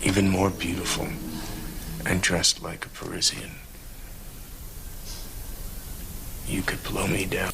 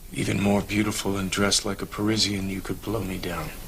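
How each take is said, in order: First: It is said with felt emotion. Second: It is read plainly, without much feeling.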